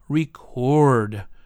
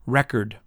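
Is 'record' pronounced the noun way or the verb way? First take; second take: verb; noun. First: It is pronounced the verb way. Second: It is pronounced the noun way. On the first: The speaker calls it right. "or to record" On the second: The speaker calls it wrong. "You would never say to record"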